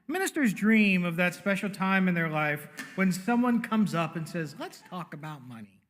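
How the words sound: It is said with clear sarcasm.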